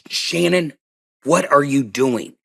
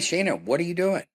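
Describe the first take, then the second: First: The voice sounds tense and intense. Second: The voice sounds easy and relaxed. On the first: Something is really wrong. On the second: Nothing is wrong.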